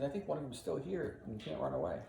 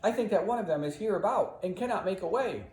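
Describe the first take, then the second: First: Said in the usual way. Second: Raised, declaiming Shakespeare line; dramatic line reading. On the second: Shown as a demonstration. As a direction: deliver the verse with drama. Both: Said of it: "He says".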